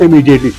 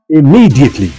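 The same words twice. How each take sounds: First: The stress is not on the second syllable. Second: The stress is on the second syllable. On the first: The speaker calls it wrong. "it is not immediately" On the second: The speaker calls it right. "it is immediately. Immediately, the citrus is on these M M, the double M"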